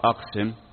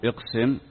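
First: The first vowel is an 'a' sound. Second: The first vowel is an 'i' sound. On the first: This is the correct standard form. The speaker calls it right. "بالفتح" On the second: This is the everyday colloquial form. The speaker calls it wrong. "بالكسر"

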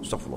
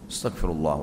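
First: It is rushed and mumbled, like gargling. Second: It is said slowly and clearly articulated. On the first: The prayer is recited carelessly without due respect. The speaker calls it wrong. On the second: The prayer is recited with proper respect. The speaker calls it right.

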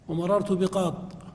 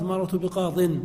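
First: The last word ends without an n sound. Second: The last word ends with an n sound. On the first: The word is said at a stop. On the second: The word is joined to what follows.

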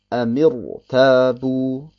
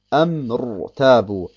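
First: A short i vowel comes between m and r. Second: The m goes straight into the r, no vowel. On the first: The speaker calls it right. "deswegen liest man es Amir Tabu" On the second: The speaker calls it wrong. "Ich müsste also sagen"

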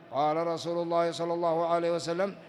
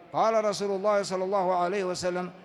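The two takes are said the same way.

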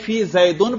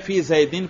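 First: The last word ends with an -un sound. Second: The last word ends with an -in sound. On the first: The case from the quoted phrase is kept. "چاہے اس پر اعراب حکائی پڑھیں" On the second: The case follows the preposition before it. "چاہے نہ پڑھیں"

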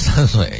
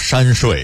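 First: It is pronounced plainly, like normal speech. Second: It is pronounced in a cutesy baby-talk way. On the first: The speaker calls it wrong. "三岁不能说三岁" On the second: The speaker calls it right. "要说山睡"

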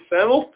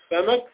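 First: The m carries the vowel u. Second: The m carries the vowel a. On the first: The word is the subject of the sentence. "ترفع بالضم على الميم" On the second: The word is the object of the sentence. "تنصب الفتحة على الميم"

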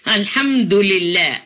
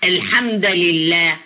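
First: Al-hamd ends with a u vowel. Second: Al-hamd ends with an a vowel. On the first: Praise is stated as a subject at the start of a sentence. The speaker calls it right. "بالرفع يعني بالضمة" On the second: Praise is treated as a verbal noun, changing the sentence structure. The speaker calls it wrong. "جاءت كأنها إيه؟ كمصدر"

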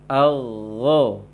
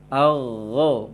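Both takes have the same delivery.

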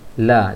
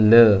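First: The vowel is an open 'a' sound. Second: The vowel is an 'e' sound. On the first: The speaker calls it right. "la jangan le" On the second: The speaker calls it wrong. "jangan le"

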